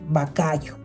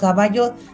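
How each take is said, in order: First: The first two consonant sounds are swapped. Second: The syllables are said in their normal order. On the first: "invierte las sílabas de las palabras" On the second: "caballo dice"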